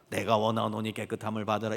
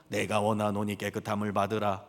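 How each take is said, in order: No difference in how they are said.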